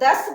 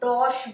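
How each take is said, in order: First: The vowel is a short 'a', ending in 's'. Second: The vowel is an 'o', ending in 'sh'. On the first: This is how Hindi speakers say it. "आप लोग दस बोलते हैं" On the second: This is how Bengali speakers say it. "हम लोग दौश बोलते हैं"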